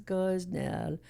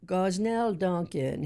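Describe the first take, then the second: First: Lilting, melodic name, very chill; sing-songy voice. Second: Said in the usual way. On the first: Retold or imitated. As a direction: sing the name gently and relaxed. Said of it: "he had this beautiful sing-songy voice like this". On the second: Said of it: "he had this beautiful sing-songy voice".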